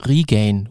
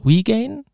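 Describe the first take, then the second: First: Regain with a throaty uvular R and a long e; German R. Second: Regain tried with an English R, rising; English attempt. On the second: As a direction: Regain with an English R, asked high. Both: Shown as a demonstration. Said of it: "das R nicht aussprechen".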